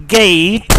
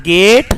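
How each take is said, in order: First: "gate" with a gliding "ay"; British pronunciation. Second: "gate" with a pure "eh"; Pakistani pronunciation. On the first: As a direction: say gate as "geh-eet". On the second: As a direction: say gate as "geht", no glide. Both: Shown as a demonstration. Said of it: "is not gate".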